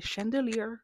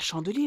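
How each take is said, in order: First: Chandelier is pronounced the English way. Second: Chandelier is pronounced like the French word. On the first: The speaker calls it right. "c'est Chandelier" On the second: The speaker calls it wrong. "c'est pas Chandelier la chanson"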